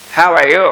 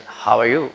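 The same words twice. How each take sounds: First: Loud, higher-pitched American "How are you"; punchy American greeting; American accent. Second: Understated British "How are you"; British accent. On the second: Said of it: "British people will say that". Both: Shown as a demonstration.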